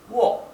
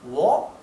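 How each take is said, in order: First: The pitch falls from start to end. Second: The pitch rises from start to end. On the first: "Si fuera el tono descendente sería wo" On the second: "Si fuera el tono ascendente sería wo"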